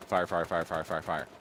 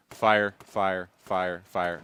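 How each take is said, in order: First: Rapid spam fire. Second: Evenly spaced, separate beats on each "fire"; measured single shots. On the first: Developer demonstrates spam firing to avoid, rapid run-on "fire". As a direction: run each "fire" straight into the next. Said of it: "not fire". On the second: Developer demonstrates how to shoot long-range weapons, spaced and punchy "fire". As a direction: land each "fire" as its own deliberate shot. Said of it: "the idea behind those weapons is to". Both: Shown as a demonstration.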